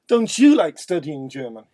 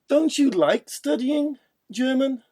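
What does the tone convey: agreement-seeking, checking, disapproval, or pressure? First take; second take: agreement-seeking; checking. First: It sounds like inviting the listener to agree. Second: It sounds like checking a fact. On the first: The speaker wants the listener to agree. "Now asking for agreement" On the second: The speaker wants to confirm information. "let's confirm information"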